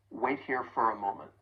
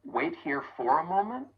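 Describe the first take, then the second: First: "for" softened to fur; soft reduced for. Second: Said in the usual way. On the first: Shown as a demonstration. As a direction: slide through "for" as fur. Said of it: "It's very soft and subtle". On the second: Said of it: "much easier when pronouncing that vowel sound".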